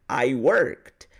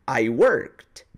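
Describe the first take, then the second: Both takes have the same delivery.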